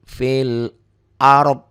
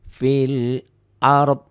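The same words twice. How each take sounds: The two takes are said the same way.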